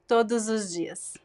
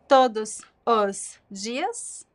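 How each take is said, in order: First: The final s links to the vowel as z. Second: The words are kept separate without linking.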